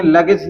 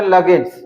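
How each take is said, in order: First: Said in the usual way. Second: "लगेज" with an added s at the end; wrong plural ending. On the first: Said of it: "लगेज ही बोलेंगे". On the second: Shown as a demonstration. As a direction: finish "लगेज" on a hissed plural -s. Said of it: "लगेज का हम उच्चारण नहीं करेंगे".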